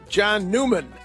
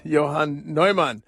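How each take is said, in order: First: The name is said with English pronunciation. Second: The name is said with German pronunciation. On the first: The speaker calls it wrong. "we call him John Newman" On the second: The speaker calls it right. "but I say it right"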